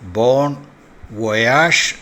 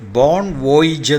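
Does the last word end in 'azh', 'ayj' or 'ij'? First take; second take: azh; ij. First: The last word ends with an 'azh' sound. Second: The last word ends with an 'ij' sound. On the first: The speaker calls it right. "ബോൺ വൊയാഷ് എന്നാണ്" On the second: The speaker calls it wrong. "അല്ല ഉച്ചരിക്കേണ്ടത്"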